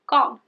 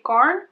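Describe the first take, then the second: First: The R sound is left out. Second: The R sound is clearly pronounced. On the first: The speaker calls it right. "you basically don't pronounce the R at all" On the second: The speaker calls it wrong. "a lot of people say garn"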